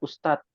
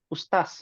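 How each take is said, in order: First: Said in standard Indonesian, without a plain s. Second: Said in a Sulawesi accent, with a plain s. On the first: "dalam bahasa Indonesia ustadz" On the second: "Makassar, eh Sulawesi ya, ustaz ... pakai s"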